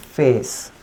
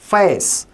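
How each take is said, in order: First: "फेस" with one pure ay vowel; "फेस" as Indian learners read it; Hindi-ised pronunciation. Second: "फेस" with a gliding vowel, half uh then ay; "फेस" as a native English speaker says face; native-speaker pronunciation. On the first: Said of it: "हिंदीकरण करके पढ़ते हैं". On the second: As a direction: glide from uh into ay in "फेस". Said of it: "native speaker जो रहता है वो कैसे बोलेगा". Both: Shown as a demonstration.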